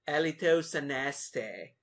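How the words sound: It is said with an American accent.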